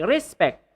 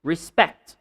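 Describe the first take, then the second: First: RES-pect, weight on RES; stress on first syllable. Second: ReSPECT, short re and strong SPECT; stress on second syllable. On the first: Teacher shows the mistake, first-syllable stress. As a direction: respect with a strong first syllable, weak pect. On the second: Teacher models the word, second-syllable stress. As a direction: Respect with the weight at the end. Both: Shown as a demonstration. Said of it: "So you don't say respect".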